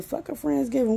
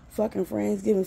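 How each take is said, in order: First: Higher scornful echo of Friendsgiving; scornful repeat. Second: Said in the usual way. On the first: Real, not acted. Mocking sister's Friendsgiving, higher and scornful. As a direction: spit the word back higher in disgust. Ranting about sister's plans.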